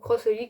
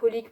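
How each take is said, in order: First: The word cross comes before Holic. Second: Nothing is said before Holic. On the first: Some people say it this way. "ou Cross Holic" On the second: This is the speaker's own way of saying it. "moi je prononce ça Holic"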